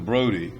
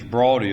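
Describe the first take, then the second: First: The first vowel sounds like the vowel in 'go'. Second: The first vowel sounds like the vowel in 'law'. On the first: The speaker calls it wrong. "as opposed to Brody" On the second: The speaker calls it right. "the correct pronunciation of his name is Brawdy"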